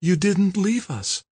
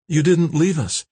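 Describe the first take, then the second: First: Slow, high woman's voice; repeated in amazement. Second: High, mildly breathless woman's voice; almost breathless. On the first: Kim repeats it to her rescuer, slow and high. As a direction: draw it out slowly, pitched high. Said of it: "Kim repeated, her eyes riveted". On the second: Kimberly thanks her rescuer, almost breathless. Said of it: "Kimberly said, almost breathless". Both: A narrator's reading.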